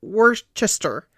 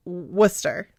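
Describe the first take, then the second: First: Worcester sounded out slowly as WOR-chest-er; spelling pronunciation. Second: Worcester shortened to two syllables, WUSS-ter; correct Worcester. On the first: Cohost reads the spelling for the reader, Worcester as slow WOR-chest-er. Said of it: "it looks like Worc". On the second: Cohost gives the reader the right form, Worcester as WUSS-ter. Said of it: "but it's Worcester". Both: Shown as a demonstration.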